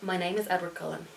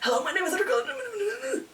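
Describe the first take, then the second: First: It is said in a normal reading voice. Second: It is said breathlessly, gasping for air.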